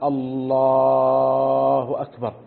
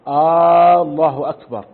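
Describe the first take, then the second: First: The l sound in the first word is drawn out. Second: The opening vowel of the first word is drawn out. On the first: It states that God is greatest. "إن مد اللام في لفظ الجلالة" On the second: It asks whether God is greatest. "إن مد همزة الله"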